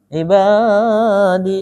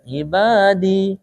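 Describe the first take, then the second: First: The long vowel is stretched out too far. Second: The long vowel is held for two beats. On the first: The speaker calls it wrong. "Itu panjang kan?" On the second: The speaker calls it right. "harusnya ibadi ... Harusnya dua"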